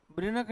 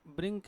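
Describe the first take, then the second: First: ब्रिनक said brin-ak, with a clear n; wrong split pronunciation. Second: ब्रिंक with ng into k, one syllable; correct nasal pronunciation. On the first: Teacher showing class the wrong way, split brin-ak. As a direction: demo the mistake: ब्रिनक in two beats. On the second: Teacher giving class the right form, nasal ng. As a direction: say ब्रिंक as bringk. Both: Shown as a demonstration. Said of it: "ब्रिनक नहीं है".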